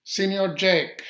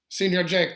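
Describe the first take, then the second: First: Loud, higher, drawn-out call across the meadow. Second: Loud, higher repeated call of "Jake". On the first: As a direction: call his name from far off, slow and loud. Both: Retold or imitated. Jose calls to Jake outside his cabin, loud high call. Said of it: "Jose called out".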